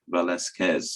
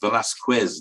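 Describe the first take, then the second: First: The name is said with Spanish sounds. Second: The name is said with English sounds. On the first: "for Spanish-speaking people, it should be pronounced Velasquez" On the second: "we tend to pronounce it as Velasquez"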